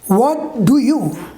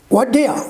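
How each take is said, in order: First: Every word is said fully and separately. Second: The words run together into two syllables.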